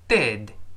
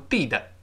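First: The final d is held with no vowel. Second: The final d is released with a vowel. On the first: The speaker calls it right. "跟老师再读一遍" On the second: The speaker calls it wrong. "而不要读d 的，不这么读"

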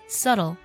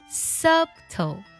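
First: No b sound is heard in the middle. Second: A b sound is heard in the middle. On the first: The speaker calls it right. "这里字母b 不发音，读作subtle" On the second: The speaker calls it wrong. "我们好多同学会读作subtle"

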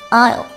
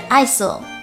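First: No s sound is pronounced in the word. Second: An s sound is pronounced in the word. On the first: The speaker calls it right. "词中间的字母s 不发音，读作aisle" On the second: The speaker calls it wrong. "不是爱索"

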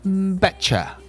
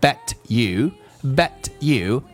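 First: The t and you merge into a ch sound. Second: The two words are pronounced separately.

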